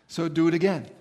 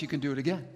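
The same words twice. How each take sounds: First: A loud, forceful "again", pushed out hard; louder demand. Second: Said in the usual way. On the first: Retold or imitated. Demanding God repeat the sign of stars, loud and forceful. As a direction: insist on it, punch the whole line.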